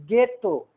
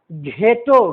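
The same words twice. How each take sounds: First: गेटो with a plain hard g, no h; गेटो said cleanly with a silent h; correct pronunciation. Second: घेटो with a breathy gh sound, the wrong way; घेटो said with the h sounded, as students wrongly do; wrong pronunciation. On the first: Teacher giving the right way to say गेटो. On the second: Teacher showing the wrong way to say घेटो. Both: Shown as a demonstration. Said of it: "घेटो नहीं पढ़ेंगे".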